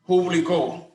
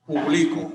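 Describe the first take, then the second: First: Publicó stressed on CÓ, higher pitch; Publicó as pu-bli-CÓ, final syllable lifted. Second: Publico stressed on LI, grave; stress on second syllable. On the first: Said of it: "es una palabra aguda". (acento en la última: publi-CÓ) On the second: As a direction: publico said as pu-BLI-co. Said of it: "es una palabra grave o llana". (acento en la penúltima: pu-BLI-co) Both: Shown as a demonstration.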